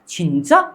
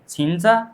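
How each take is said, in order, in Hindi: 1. अंत में सुर ऊपर जाता है। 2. अंत में सुर सपाट रहता है। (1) "छिंचा ऐसे करके ही आप पूछ सकते हैं" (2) "छिंचा करके ऐसा नहीं छोड़ना है"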